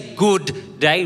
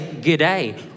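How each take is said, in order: First: Both words are said fully and separately. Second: The first word shrinks to a quick g sound. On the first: The speaker calls it wrong. "don't say good day" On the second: The speaker calls it right. "Just say g'day"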